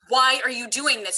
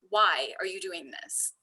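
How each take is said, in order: First: It sounds condemning and accusing. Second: It sounds open and curious.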